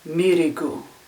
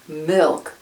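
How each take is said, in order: First: It is said with extra vowels added. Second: It is said with no added vowels.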